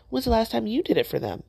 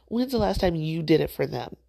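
First: Higher, pressing rhetorical jab; pointed challenge. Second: Softened repeat with a laugh; said with love. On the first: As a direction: call them out sharply. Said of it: "yes, I said it with love". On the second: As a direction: take the edge off, kindly. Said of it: "I said it with love". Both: Real, not acted.

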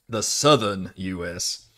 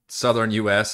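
First: Slow Southern drawl; Southern US accent. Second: Said in the usual way. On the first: Shown as a demonstration. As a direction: lightly put on a drawn-out Southern accent. Contrasts own accent with Southern one. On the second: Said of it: "we have a very different accent".

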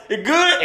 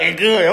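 First: "It good?" asked with a high rising tune; rising "It good?" as a question. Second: "It good." dropped lower with a falling tune; falling "It good." as an answer; settled answer. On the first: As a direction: test it like a wary customer asking. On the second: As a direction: confirm it flatly like a satisfied dealer. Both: Retold or imitated. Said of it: "and then he gonna like".

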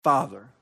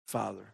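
First: Said in the usual way. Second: Father murmured very softly and lower; hushed. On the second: Shown as a demonstration. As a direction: breathe Father almost inaudibly, tenderly.

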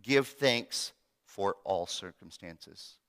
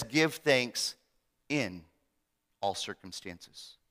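First: Slow, with GIVE stressed; "Give thanks for all circumstances" said slowly, weight on Give; misquoted version. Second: "Give thanks in all circumstances" with a pause before "in" and "all circumstances" dropping low and slow; correct version. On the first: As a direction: lay out the wrong wording slowly, leaning on Give. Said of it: "Paul didn't say". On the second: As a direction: pause before "in", trailing softer. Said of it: "He says". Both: Shown as a demonstration.

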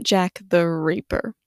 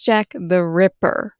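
First: Reaper said REE-per, long ee as in reap; wrong name Jack the Reaper. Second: Ripper said RIP-per, short i as in rip; correct name Jack the Ripper. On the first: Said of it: "not Jack the Reaper". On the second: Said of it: "his name is Jack the Ripper". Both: Shown as a demonstration.

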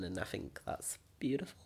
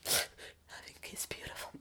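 First: Said in the usual way. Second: Breathy whisper with a laugh. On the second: Shown as a demonstration. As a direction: whisper it back softly.

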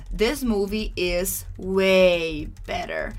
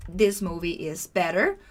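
First: Long, slow "way" leading into "better"; emphasis on way better. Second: Said in the usual way. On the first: Shown as a demonstration. Teacher demonstrates a bigger difference to learners, drawn-out emphasis on "way". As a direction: draw out "way" to widen the comparison. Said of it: "You are emphasizing, you're creating a bigger difference".

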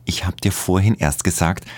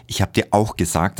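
First: Vorhin lifted and rising; stress on vorhin. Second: Auch hit, falling; stress on auch. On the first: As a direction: lean on vorhin. Repeated reproach, stress shifts. (Betonung auf „vorhin“, steigend) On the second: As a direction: punch auch angrily. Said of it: "Zornig antwortet er". (Betonung auf „auch“, fallend) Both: A narrator's reading.

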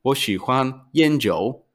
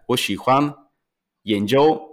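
First: Slow 研究 toned as yānjiǔ, last syllable dipping; changed tone. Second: 研究 pronounced yánjiū, meaning research; tones for research. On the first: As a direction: draw out 研究 with the tones of "tobacco and alcohol". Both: Shown as a demonstration. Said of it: "to ostatnie słowo w innym tonie".

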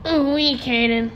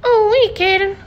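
First: Morty impression. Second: Put-on high, loud stammering teen voice; squeaky nervous Morty; Morty impression. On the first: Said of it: "it's more like". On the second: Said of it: "Morty from Rick and Morty".

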